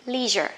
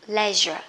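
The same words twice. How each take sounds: First: LEISURE as American "LEE-zher"; long EE in LEISURE, the American way. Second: LEISURE as British "LEH-zher"; short E in LEISURE, the British way. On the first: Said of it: "Người Mỹ á thì thích đọc". (đọc LEISURE kiểu Mỹ, "li-giơ") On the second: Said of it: "người Anh thì thích đọc là". (đọc LEISURE kiểu Anh, "le-giơ") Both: Shown as a demonstration.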